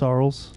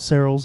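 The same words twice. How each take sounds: First: The name is said not rhyming with barrels. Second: The name is said to rhyme with barrels. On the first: The speaker calls it right. "it's Sarles" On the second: The speaker calls it wrong. "it's not Sarles"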